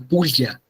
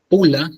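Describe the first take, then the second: First: The l sound is palatalized, like a y. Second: The l sound is plain. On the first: "sino que era pulla, entonces, de esta manera extraña" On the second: "no era pula"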